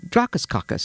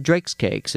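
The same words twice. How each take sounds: First: "Drakakakis" run together, syllables tumbling; customer's garbled "Drakakakis"; mangled Drake's Cakes. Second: "Drake's Cakes" said as two clean words; the real name, finally clear. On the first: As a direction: say "Drakakakis" as one garbled word. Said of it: "Could you have any Drakakakis". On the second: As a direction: spell out "Drake's Cakes" plainly. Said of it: "And he said". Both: Retold or imitated.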